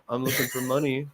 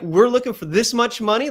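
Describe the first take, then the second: First: Softer, low-energy mock ask; limp mock ask. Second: Higher and louder with energy; energetic pitch. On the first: Coach mocking a pitcher asking for money without energy. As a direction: mumble it with no energy. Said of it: "somebody who's like". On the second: Coach showing the pitcher an energetic money ask. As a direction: pop it up. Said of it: "pop it up a little bit". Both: Shown as a demonstration.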